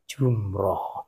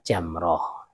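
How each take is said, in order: First: The first vowel sounds like 'u'. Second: The first vowel sounds like 'a'. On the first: The speaker calls it wrong. "salah kaprah dikatakan lontar jumroh" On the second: The speaker calls it right. "Sebenarnya adalah apa jamroh"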